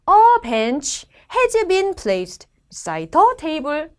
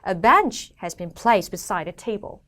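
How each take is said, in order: First: Every word, including small ones, gets equal stress. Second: Small words are reduced; content words are stressed.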